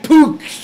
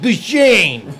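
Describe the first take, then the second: First: The name begins with an unvoiced P sound. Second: The name begins with a voiced B sound. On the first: It follows the suggested correction. "if you want to call it Puchon" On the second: It follows the English spelling. "it spells B U S A N. So I'm going to pronounce it Busan"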